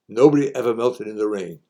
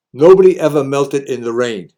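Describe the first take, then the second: First: Said in the usual way. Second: Motto called out loud and higher; loud proclamation to the crowd; loud declaration. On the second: Shown as a demonstration. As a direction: belt out the saying like a rallying cry.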